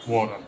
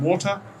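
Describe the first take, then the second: First: It is said with an American pronunciation. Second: It is said with a British pronunciation. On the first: "the same on water to water" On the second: "the same on water to water"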